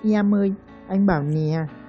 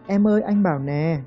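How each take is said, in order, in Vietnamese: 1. Nguyên âm E bắt đầu bằng âm lướt I. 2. Nguyên âm E thuần, không có âm lướt.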